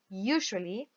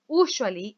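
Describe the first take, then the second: First: The first syllable sounds like the letter U. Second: The first syllable does not sound like U. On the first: The speaker calls it right. "Like a U sound" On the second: The speaker calls it wrong. "It's not usually"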